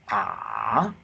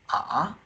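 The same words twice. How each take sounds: First: It dips low in pitch, the third tone. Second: It moves upward from one pitch to another. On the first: "the third tone is" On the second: "the second tone from here to here"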